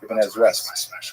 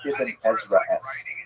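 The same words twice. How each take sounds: First: It is said quickly, run together fast. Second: It is said at a normal, unhurried speed.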